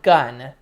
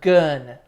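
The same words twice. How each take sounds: First: The vowel is the plain 'uh' of gun. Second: The vowel is rounder, between gun and goon. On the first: The speaker calls it wrong. "Not like gun" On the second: The speaker calls it right. "but gun. Like add an E to the word gun"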